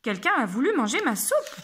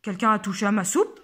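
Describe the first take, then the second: First: It is said in an angry voice. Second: It is said in a big deep voice.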